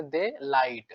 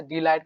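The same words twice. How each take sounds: First: "दे लाइट" as two words, opening with "de" instead of "dee"; memory-aid pronunciation. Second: Said in the usual way. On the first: Shown as a demonstration. Teacher giving students a memory trick, split "de light" pronunciation. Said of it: "डी लाइट को याद रखेंगे". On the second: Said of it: "क्या याद रखेंगे इसे".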